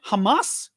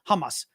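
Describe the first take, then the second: First: The stress is on the second syllable. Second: The stress is on the first syllable. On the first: "pronounce it Hamas on the on the second syllable" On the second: "on the first syllable, Hamas"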